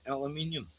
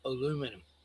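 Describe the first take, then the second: First: The word is said with five syllables. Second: The word is said with four syllables. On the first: This is how Australians say it. "we called aluminium" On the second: This is how others say it. "not aluminum"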